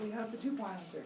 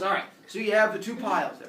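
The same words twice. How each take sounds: First: Quick, softer silly echo in higher pitch; dim humans parroting. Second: Zeus. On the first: Humans echoing Zeus, dim parroting. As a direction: parrot it back quickly and softly. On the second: Zeus addresses the humans. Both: Acted.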